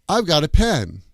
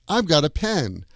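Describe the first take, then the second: No difference in how they are said.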